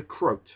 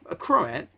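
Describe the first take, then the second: First: The word rhymes with 'groat'. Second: The word does not rhyme with 'groat'. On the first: The speaker calls it wrong. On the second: The speaker calls it right.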